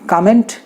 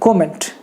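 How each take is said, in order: First: The first vowel sounds like 'ah'. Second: The first vowel sounds like 'oh'. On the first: This is the American way. "कॉ के जगह पे का कर देंगे" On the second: This is the British way. "UK वाले कॉ के जगह पे को कर देंगे"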